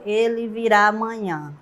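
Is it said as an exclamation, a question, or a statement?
statement. It is said flatly, as a plain statement. It simply affirms that he will come tomorrow. "se tivesse só um ponto final"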